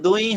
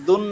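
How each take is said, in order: First: The n sound merges into a y sound. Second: The n sound is clearly pronounced. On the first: "নুন সাকিনকে আহ, মিলাতে হতো ইয়ার সাথে" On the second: "দুন না হয়ে"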